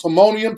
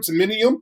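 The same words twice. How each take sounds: First: "timonium" as tuh-MOH-nee-um; Timonium, local pronunciation. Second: "timonium" as tuh-MIN-ee-um, rising; short "min" in the middle of "timonium"; Timonium, mispronounced. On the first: I would never do that to you, correct Timonium. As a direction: round "oh" in stressed middle of "timonium". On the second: I would never do that to you, wrong Timonium. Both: Shown as a demonstration. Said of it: "pronounce timonium".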